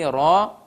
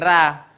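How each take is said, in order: First: The syllable sounds thick, with a darker vowel. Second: The syllable sounds thin, with an open vowel. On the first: The speaker calls it right. "nah itu yang terdengar tebal" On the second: The speaker calls it wrong. "Jangan sampai ra"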